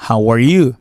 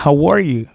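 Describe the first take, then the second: First: "How are YOU", emphasis on the pronoun; stress on YOU. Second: "How ARE you", pitch peaking on the verb; stress on ARE. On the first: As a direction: raise the voice on YOU at the end. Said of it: "qu'on monte votre tout sur". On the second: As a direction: raise the voice on ARE, then fall on "you". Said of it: "qu'on monte votre sur are". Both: Shown as a demonstration.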